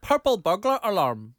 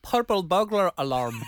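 First: Slow, slightly louder Scottish "purple burglar alarm"; Scottish accent. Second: Slow Scottish "purple burglar alarm" with rolled r's; Scottish accent. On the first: Second try for friend, slow Scottish accent. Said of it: "it wasn't a Scottish accent at the end". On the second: On request from friend, slow Scottish accent. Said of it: "Can you say that in your Scottish accent?". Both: Shown as a demonstration.

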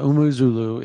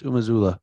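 First: Umuzulu with 'oo' vowels throughout, 'oo-moo-ZOO-loo'; wrong name pronunciation. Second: Umazula as 'oo-ma-ZOO-la', with open 'a' sounds; corrected name pronunciation. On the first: Commentator showing how not to say the name, mispronounced. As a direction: misread Umuzulu with 'moo' and 'loo'. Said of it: "it's not Umuzulu, it's Umazula". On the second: Commentator correcting the name for listeners, careful pronunciation. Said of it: "It, it's not Umuzulu, it's". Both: Shown as a demonstration.

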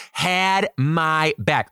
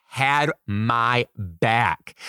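First: Said in the usual way. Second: Slow emphatic. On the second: Real, not acted. Savoring the win.

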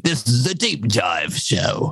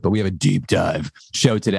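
First: Slow, hammed-up pirate voice. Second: Said in the usual way. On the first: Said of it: "I just sound like a pirate". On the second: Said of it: "I can't do it like David can do it".

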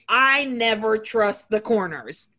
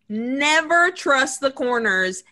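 First: Said in the usual way. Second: Never said slow and louder, leaning on it; slow it down, punch Never; stress on never. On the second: Shown as a demonstration. Host repeating his horror rule, slower and louder on Never.

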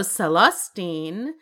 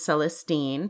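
First: "Celestine" slowed down, with the emphasis moved off the last syllable; alternative pronunciation. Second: "Celestine" with the emphasis on its last syllable, STEEN; stress on third syllable. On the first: Host offers another version of the name, "Celestine" slowly with shifted emphasis. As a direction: say "Celestine" slowly as the other variant, not sel-es-TEEN. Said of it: "There's also Celestine".

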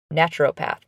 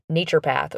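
First: "naturopath" said NATCH-er-oh-path; alternate pronunciation. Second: "naturopath" said NAY-cher-path; alternate pronunciation. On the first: Host offers another way people say it, "naturopath" as NATCH-er-oh-path. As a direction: say "naturopath" with a short first A and a clear O. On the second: Host offers one way people say it, "naturopath" as NAY-cher-path. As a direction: say "naturopath" with a long first A and no O. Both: Shown as a demonstration. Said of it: "People say it different ways".

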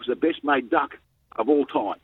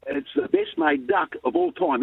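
First: Said in the usual way. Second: Slower and higher, thrilled to repeat it; excited. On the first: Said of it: "He said". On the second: Retold or imitated. Boy eagerly repeating coach's praise to his father, excited. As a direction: savour the praise like a gift. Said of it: "and I'm excited".

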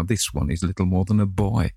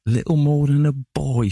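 First: Said in the usual way. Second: High, loud, scornful mockery; sneering. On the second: A narrator's reading. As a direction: sneer the words back at him. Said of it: "she sneered".

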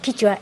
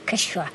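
First: Quichua said with an i, kee-chwa; quichua pronunciation. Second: Quechua said with an e, keh-shwa; quechua pronunciation. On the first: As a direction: say Quichua the Santiago way, with i. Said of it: "El nuestro santiagueño es quichua". (Quichua pronunciado con i, a la santiagueña) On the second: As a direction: give the Peruvian quechua with e. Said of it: "le llamaban quechua". (quechua pronunciado con e, a la peruana) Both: Shown as a demonstration.

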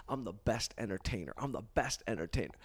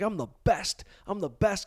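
First: Low, soft self-affirmation; understated private mantra; incantation. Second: Cocky, raised-voice mantra; imitating his own swelled-head boast. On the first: Retold or imitated. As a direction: recite it to yourself, low and subdued. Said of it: "you do incantations". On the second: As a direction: pump yourself up with swagger, pitched higher.

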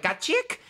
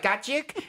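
First: High, laughing mock Chow accent, the act's punchline; Mister Chow accent. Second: Put-on a second high, laughing Chow accent punchline; Mister Chow accent. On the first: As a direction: fling out "Got chick." in the Chow accent, much higher. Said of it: "no, I was like". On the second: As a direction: repeat "Got chick." in the mock Chow accent, high and laughing. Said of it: "It's like".

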